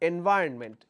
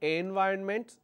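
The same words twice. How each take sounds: First: The first vowel is short. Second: The first vowel is long. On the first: The speaker calls it right. "It's short vowel A" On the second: The speaker calls it wrong. "I can either say long vowel A, but in that case I will have to pronounce this as environment"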